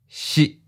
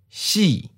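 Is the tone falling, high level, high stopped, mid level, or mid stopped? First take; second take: mid stopped; falling. First: The pitch is mid and cut off abruptly. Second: The pitch starts high and falls. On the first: "Mid stop. Fourth tone" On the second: "High falling. Second tone"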